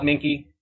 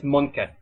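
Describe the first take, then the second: First: The name is said with an English pronunciation. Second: The name is said with a German pronunciation. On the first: This is the everyday way to say the name. "Just call it Minky" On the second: This is how the name is said in Germany. "If you go to Germany and pronounce it, then it's Munke"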